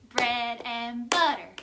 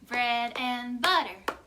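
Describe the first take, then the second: The two takes are said the same way.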